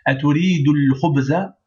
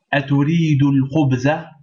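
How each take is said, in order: First: Aturidul khubza with the alif silent, du running into l; liaison to the lam. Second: Aturidu al khubza with the al of al khubza said; Aturidu, then al khubza; words read separately. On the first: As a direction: glide straight from du to the l. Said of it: "directement du del, on va au lam". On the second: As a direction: read the words one by one, al pronounced. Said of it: "on fait la liaison". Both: Shown as a demonstration.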